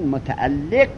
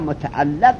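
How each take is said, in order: First: The vowel after the doubled l is 'i'. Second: The vowel after the doubled l is 'a'. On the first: "به کسر لام" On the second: "به فتح لام"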